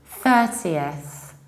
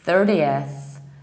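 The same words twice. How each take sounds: First: It is said in a non-American accent. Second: It is said in an American accent.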